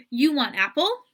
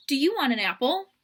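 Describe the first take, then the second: First: "You want apple?" lifted at the end, a touch louder; simplified parentese. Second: Said in the usual way. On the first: Shown as a demonstration. Parent asking a toddler a simplified question. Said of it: "adult might say". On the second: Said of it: "the question".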